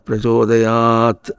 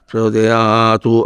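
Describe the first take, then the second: First: The word ends on a bare t consonant. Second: The word ends with an added u vowel. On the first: The speaker calls it right. "అనాలి" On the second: The speaker calls it wrong. "అనకూడదు"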